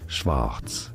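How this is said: It is said with a German pronunciation. It is the German word for black. "in German, black is said as Schwarz"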